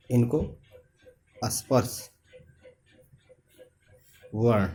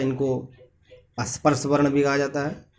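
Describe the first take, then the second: First: इनको, स्पर्श, वर्ण each set apart by long pauses; word-by-word dictation. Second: Said in the usual way. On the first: Shown as a demonstration. Teacher repeats term piece by piece. (इनको, स्पर्श, वर्ण रुक-रुक कर, लिखवाने की तरह)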